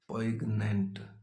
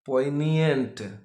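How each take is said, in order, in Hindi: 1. इसे बिल्कुल वैसे ही बोला जाता है जैसा लिखा है। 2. इसे वैसे बोला जाता है जैसे मूल वक्ता बोलते हैं। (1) "कोई भी उसको पॉइगनेंट ही पड़ेगा" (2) "It is pronounced as uh, poignant"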